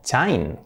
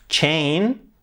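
First: "chain" read CHINE; Spanish AI in "chain"; read as spelt. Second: "chain" said CHAYN; an AY sound in "chain"; English pronunciation. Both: Shown as a demonstration. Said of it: "Por lo tanto".

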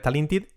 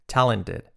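First: TALENTED with I vowels, "ta-lin-tid", rising; wrong pronunciation. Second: TALENTED with E vowels, "TA-len-ted", falling; model pronunciation. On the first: Teacher showing learners the mistake, wrong pronunciation. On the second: Teacher giving learners the model, correct pronunciation. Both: Shown as a demonstration. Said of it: "nada de talented".

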